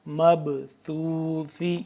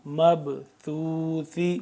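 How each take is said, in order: No difference in how they are said.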